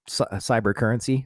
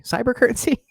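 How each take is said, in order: First: Said in the usual way. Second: Word breaks into a high laugh; self-mocking laugh on the word. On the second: Real, not acted. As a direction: laugh at your own clumsy word. Repeats word, laughing at himself.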